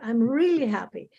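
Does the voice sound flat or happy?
happy. It is said with lively, happy expression. The speaker sounds genuinely happy. The speaker calls it right. "Say, oh, I'm so happy"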